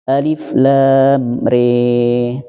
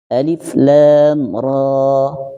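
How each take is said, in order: First: The last syllable ends in an e sound. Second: The last syllable ends in an open a. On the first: This is the Shu'bah reading. "Riwayat Syu'bahnya" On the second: This is the Hafs reading. "Itu riwayat Hafiz"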